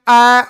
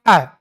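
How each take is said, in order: First: अ held out on a level note; prolonged pluta vowel. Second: अ said short, falling away at once; a single quick beat on अ, cut off without holding; short one-beat vowel. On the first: Teacher shows the pluta form, अ drawn out long. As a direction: stretch अ well beyond one beat. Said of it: "ये चिन्ह दर्शाएगा ये प्लुत है". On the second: Teacher shows a one-matra vowel, अ kept short. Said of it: "उच्चारण का समय एक मात्रिक समय". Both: Shown as a demonstration.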